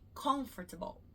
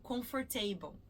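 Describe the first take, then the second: First: The stress is on the first syllable. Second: The stress is not on the first syllable. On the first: The speaker calls it right. "a sílaba mais forte é o con" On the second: The speaker calls it wrong. "eu escuto muito comfortable, comfortable, mas não é"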